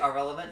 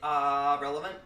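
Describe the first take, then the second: First: The first vowel is short and quick. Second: The first vowel is drawn out long. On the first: The speaker calls it wrong. "Don't just say irrelevant" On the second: The speaker calls it right. "you gotta hang the ah"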